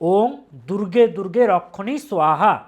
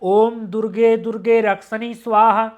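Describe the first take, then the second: First: The word rakshani has a Bengali pronunciation. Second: The word rakshani has a Sanskrit pronunciation. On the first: "বাংলাতে যখন আমরা পাঠ করব, রাক্ষানিটা হয়ে যাবে রক্ষণী স্বাহা" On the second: "প্রপার সংস্কৃততে উচ্চারণ হবে"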